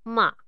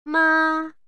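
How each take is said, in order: First: It is said with the third tone. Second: It is said with the first tone. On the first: "Bunyi ketiga" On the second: "Bunyi yang pertama"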